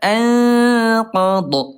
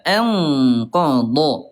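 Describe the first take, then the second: First: The nasal hum before the q is weak. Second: The nasal hum before the q is strong. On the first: The speaker calls it wrong. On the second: The speaker calls it right.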